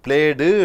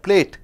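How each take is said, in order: First: The ending has d plus an added vowel. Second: The ending is short with no added vowel. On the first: The speaker calls it wrong. "பிளேடு என்று சொல்றதில்லை" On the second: The speaker calls it right.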